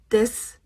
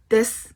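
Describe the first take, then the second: First: The final u sound is dropped. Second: The final u sound is dropped.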